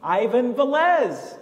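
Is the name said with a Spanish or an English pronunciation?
English. The name is said with English pronunciation. This is the name as changed after moving.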